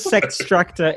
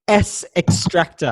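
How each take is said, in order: First: It is said as 'Sex', then 'Tractor'. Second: The letter S is said, then 'Extractor'. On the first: This is how everyone actually says it, as an in-joke. "Everyone says" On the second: This is the official pronunciation. "the official pronunciation is"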